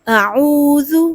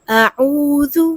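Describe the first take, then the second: The two takes are said the same way.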